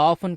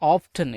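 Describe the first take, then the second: First: The word is said without a t sound. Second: The word is said with a t sound. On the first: "இதை வந்து ஆஃபன் கூட உச்சரிச்சுக்கலாம்" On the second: "இல்லை ஆஃப்டன் எப்படின்னு கூட உச்சரிச்சுக்கலாம்"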